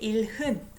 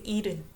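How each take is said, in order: First: An h sound is heard in the middle. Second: No h sound is heard in the middle. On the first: The speaker calls it wrong. "I didn't say 일흔" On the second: The speaker calls it right. "So I didn't pronounce H here"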